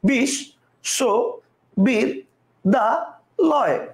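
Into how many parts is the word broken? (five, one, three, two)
five. The word is broken into five separate parts. "কয়টা হলো পাঁচটা"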